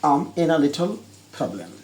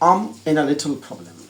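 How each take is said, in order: First: The words run together in relaxed native style. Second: The words run together in relaxed native style.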